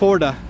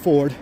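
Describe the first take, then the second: First: The word ends with an added uh vowel. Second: The word ends on the d sound. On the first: The speaker calls it wrong. "Anyone who pronounces it Forda should be tossed" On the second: The speaker calls it right. "Only one way to pronounce Ford"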